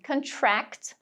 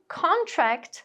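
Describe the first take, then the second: First: "contract" as kun-TRACT, slow; "contract" with weak start, strong end; stress on second syllable. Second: "contract" as CON-tract, slow; "contract" with strong, drawn-out first syllable; stress on first syllable. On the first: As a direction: lean on TRACT in "contract", the verb. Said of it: "a sílaba tônica vai ser a segunda". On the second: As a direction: lean on CON in "contract", the noun. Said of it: "sílaba tônica marcada ali na primeira". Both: Shown as a demonstration.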